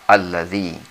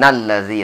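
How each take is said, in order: First: The first vowel is pronounced as a after a stop. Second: The first vowel is dropped, joined to the word before. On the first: The reading stopped at the previous word. "maka alifnya itu harus kita baca menjadi a" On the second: The reading continues without a stop. "alif yang berada di depan lam allazi itu tidak dibaca. Jadi langsung"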